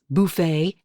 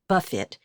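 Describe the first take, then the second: First: The stress is on the second syllable. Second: The stress is on the first syllable. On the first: It names a self-serve meal. "as in all you can eat" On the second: "as in Margaritaville"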